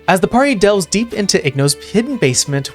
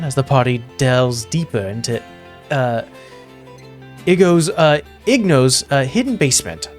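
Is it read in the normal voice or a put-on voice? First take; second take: put-on; normal. First: It is read in a put-on narrator voice. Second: It is read in the speaker's normal voice.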